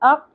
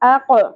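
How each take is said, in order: First: The final q is cut off with no bounce. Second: The final q ends with an echoing bounce. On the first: The speaker calls it wrong. "اق نہیں پڑھنا" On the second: The speaker calls it right. "یہاں ہم نے قلقلہ بھی کرنا ہے"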